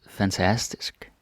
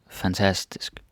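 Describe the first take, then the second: No difference in how they are said.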